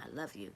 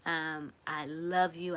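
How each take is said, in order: First: Much lower and softer, tender. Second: Said in the usual way. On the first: Real, not acted. Streamer repeating her love softly to viewers. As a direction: let it sink to a soft, low murmur.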